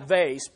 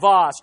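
First: It is said in an everyday, plain way. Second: It is said in a fancy, posh way. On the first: This is the speaker's normal way of saying it. "I say vase" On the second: It lends the object an air of wealth and honor. "I'm just saying vase, trying to escalate it into great honor"

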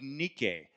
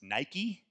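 First: The name is said in an older pronunciation. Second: The name is said in its modern pronunciation. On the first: This is how the name was originally said. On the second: This is how the name is said today.

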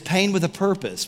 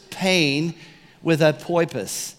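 First: The word purpose is pronounced in the standard way. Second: The word purpose is pronounced in an altered, comic way. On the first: "purpose, sorry" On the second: "You got to say it that way to make it stick"

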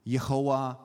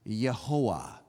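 First: The name begins with a Y sound. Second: The name begins with a Y sound.

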